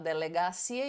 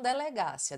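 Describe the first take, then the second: First: The stress falls on the syllable ci. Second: The stress falls on the syllable ga. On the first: The speaker calls it right. "você fala delegacia" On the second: The speaker calls it wrong. "e não delegácia"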